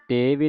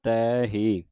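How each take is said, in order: First: ਤੇ ਵੀ with a plain e and a v sound; ਤੇ ਵੀ instead of ਤੈ ਹੀ; wrong pronunciation. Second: ਤੈ ਹੀ with the open ai vowel and a clear h; ਤੈ ਹੀ, ai then hee; correct pronunciation. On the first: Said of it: "ਤੇ ਵੀ ਨਹੀਂ ਪੜ੍ਹਨਾ". (ਗਲਤ ਉਚਾਰਨ ਤੇ ਵੀ) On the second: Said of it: "ਦਲਾਵਾਂ ਦੇ ਨਾਲ ਉਚਾਰਨ ਕਰਨਾ ਹੈ". (ਸਹੀ ਉਚਾਰਨ ਤੈ ਹੀ, ਦਲਾਵਾਂ ਨਾਲ) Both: Shown as a demonstration.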